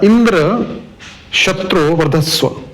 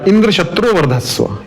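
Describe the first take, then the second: First: There is a pause after the first word. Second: It is said quickly, with no pause.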